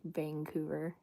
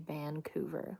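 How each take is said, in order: First: The first syllable ends in an ng sound. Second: The first syllable ends in a plain n sound.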